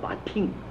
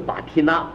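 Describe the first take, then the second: First: The word ends in a nasal sound. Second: The word ends in a separate 'na' syllable. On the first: The speaker calls it right. "而是巴听" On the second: The speaker calls it wrong. "不是巴提纳"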